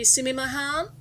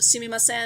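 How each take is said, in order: First: The third syllable begins with an h sound. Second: The third syllable begins with an s sound. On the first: This is the regional dialect form. "it'll be sumimahan" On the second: This is the standard form. "instead of sumimasen"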